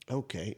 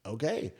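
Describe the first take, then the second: First: "Okay" low and soft, falling at the end; "Okay" as a hushed, falling reply; resigned acceptance. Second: "Okay" soft, rising at the end; "Okay" as a quiet, questioning reply; puzzled acceptance. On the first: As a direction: let "Okay" drop quietly, going along with it. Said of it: "And I was like". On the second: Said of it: "And she was like". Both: Retold or imitated.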